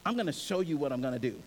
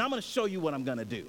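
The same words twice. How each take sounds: First: "gonna" leaned on in a slower, weightier repeat; slow down and land each word; God insisting to Moses, said again with weight; slow emphatic repeat. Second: Fast, tossed-off promise; God telling Moses what he will do, said quickly; quick first take. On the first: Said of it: "and I'm gonna show you what I'm gonna do". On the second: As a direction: rattle it off lightly. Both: Shown as a demonstration.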